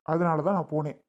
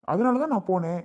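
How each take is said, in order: First: Said in the usual way. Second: Loud and higher, punching தான்; emphatic angry. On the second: Acted. Husband telling his wife why he left, loud and emphatic on தான். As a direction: slam the point home on தான்.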